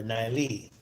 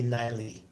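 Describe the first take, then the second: First: "Niley" with stress on the final syllable; second-syllable stress. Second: "Niley" with stress on the first syllable. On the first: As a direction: lean on the closing "ley" of "Niley". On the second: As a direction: punch the opening syllable of "Niley". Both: Shown as a demonstration. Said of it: "am I pronouncing your name correctly".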